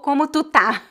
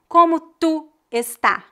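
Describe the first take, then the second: First: The verb is shortened, dropping its first syllable. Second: The verb is said in full, with both syllables.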